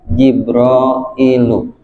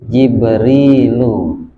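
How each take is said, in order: First: The middle vowel is an 'ai' diphthong. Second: The middle vowel is a long 'ee'. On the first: This is the underlying original form. The speaker calls it wrong. "kurang pantas" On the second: This is the changed form actually used. The speaker calls it right. "berubah jadi Jibrilu karena kasroh saudaranya ya"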